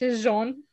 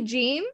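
First: The name is said the French way. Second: The name is said the English way. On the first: "it's very French" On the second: "You say Jean?"

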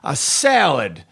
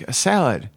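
First: The words are said forcefully and dominantly. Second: The words are said softly and understated. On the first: The speaker calls it wrong. "being more dominant in the punchline" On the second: The speaker calls it right. "I had to go under the wave"

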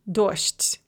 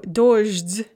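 First: The final consonants are voiceless, sh and t. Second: The final consonants are voiced, zh and d.

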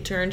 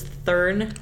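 First: The word begins with a plain t sound. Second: The word begins with a th sound. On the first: "she doesn't say turn" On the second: "she says thurn"

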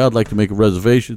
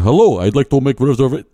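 First: It is said in his ordinary accent. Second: It is said in a put-on Indian accent.

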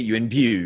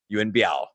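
First: The name is said in a Cantonese pronunciation. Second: The name is said in a non-Cantonese pronunciation.

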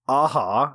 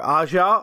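First: The name sounds like the word a-ha. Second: The name does not sound like a-ha. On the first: "if you don't like that second pronunciation, then take on me" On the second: "it's either [name] or"

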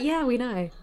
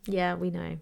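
First: It is said in a light, friendly tone. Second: It is said in a curt, dismissive tone. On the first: It is just a casual, good-natured acknowledgment. The speaker calls it right. "I didn't mean to say it like that. I was just like" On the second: It sounds like annoyance at hearing it again. The speaker calls it wrong. "I said that really shitty"

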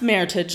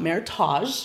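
First: The ending sounds like the word 'heritage'. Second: The ending does not sound like 'heritage'. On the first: The speaker calls it right. "it is pronounced Maritage" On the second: The speaker calls it wrong. "not Maritage"

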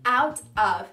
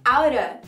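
First: It is said carefully, each word distinct. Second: It is said fast, words run together.

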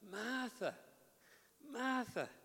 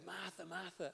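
First: It sounds gentle and compassionate. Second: It sounds like a scolding telling-off.

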